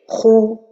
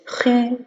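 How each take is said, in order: First: The vowel is a rounded oo sound. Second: The vowel is a fronted French u sound. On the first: The vowel keeps its proper rounded quality. The speaker calls it right. "la prononciation correcte c'est khou" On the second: The vowel leans toward the i vowel. The speaker calls it wrong. "ma voyelle dhamma se penche vers le kasra ... On dirait que c'est le U français"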